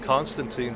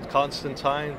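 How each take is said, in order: First: The name is pronounced the American way. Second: The name is pronounced the British way. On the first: This is the official pronunciation for the character. "here, I asked DC, and it's Constantine for them" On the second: This is how people from England say it. "I know if you're from England"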